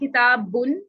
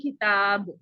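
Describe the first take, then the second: First: The word ends with an added n sound. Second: The word ends abruptly on a bare b. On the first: The reading continues without stopping. "एंड पे नून की साउंड आती है" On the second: The reader stops on this word. "जब हम इस पे वक्फ करते हैं ... हम बा को साकिन कर देते हैं"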